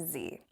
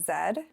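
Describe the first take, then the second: First: The letter is said as 'zee'. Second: The letter is said as 'zed'.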